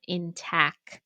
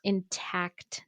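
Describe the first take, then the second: First: "intact" said slowly as "intack"; mispronunciation. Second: "intact" with the final t sounded; correct pronunciation. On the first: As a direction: drop the last t: "in-tack" for "intact". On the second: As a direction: say "intact" with a crisp ending T. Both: Shown as a demonstration. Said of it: "not intact".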